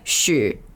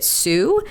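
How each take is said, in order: First: The name begins with an SH sound. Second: The name begins with a plain S sound. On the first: This is how the name is said in Chinese. The speaker calls it right. "how do you say it in Chinese? And he's like, Shu" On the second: This is the anglicized way of saying the name. The speaker calls it wrong. "he pronounces it Sue"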